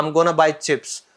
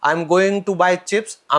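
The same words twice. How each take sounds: First: Going to blurred into gonna; I'm gonna buy chips, run together; casual slang. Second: Said in the usual way. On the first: Shown as a demonstration. Teacher showing slang gonna, casual. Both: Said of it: "ठीक है".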